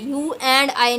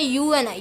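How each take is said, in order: First: The d sound in and is pronounced. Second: The d sound in and is dropped. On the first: The speaker calls it wrong. "नहीं बोलते हम लोग" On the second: The speaker calls it right. "हम कह देते हैं"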